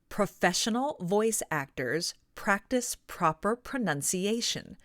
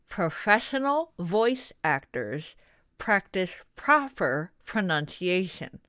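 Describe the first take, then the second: First: It is spoken freely with nothing between the teeth. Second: It is spoken with something held between the teeth. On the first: "Then take out the pencil and feel the difference" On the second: "Place a pencil horizontally between your teeth and try reading a sentence out loud"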